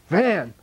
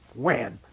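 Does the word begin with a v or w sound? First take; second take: v sound; w sound. First: The word begins with a v sound. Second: The word begins with a w sound. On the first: The speaker calls it right. "Try to teach a Tibetan V" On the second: The speaker calls it wrong. "Tibetan doesn't have a, a V"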